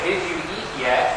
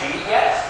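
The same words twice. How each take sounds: First: Each word is pronounced fully and separately. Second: The words are reduced and run together. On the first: The speaker calls it wrong. "we often don't say" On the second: The speaker calls it right. "We say, ... you got the duh from did, you got yup"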